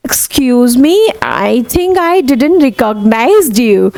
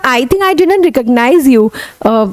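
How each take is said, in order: First: Drawn-out polite apology, very slow; slow demo. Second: Corrected line, still slow; slow corrected demo. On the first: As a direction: say it slowly, politely. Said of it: "अब". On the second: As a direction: repeat it slowly and correctly. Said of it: "मतलब". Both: Shown as a demonstration.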